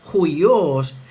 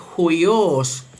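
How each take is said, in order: First: It begins with an 'h' sound and 'ui'. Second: It begins with an 'h' sound and 'ui'.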